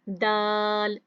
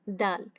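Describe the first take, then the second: First: The vowel is stretched out long. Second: The vowel is said short, without stretching. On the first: The speaker calls it wrong. "खींच कर नहीं पढ़ना, दाल इस तरह नहीं पढ़ना" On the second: The speaker calls it right. "सिर्फ एक ही हरकत पढ़नी है"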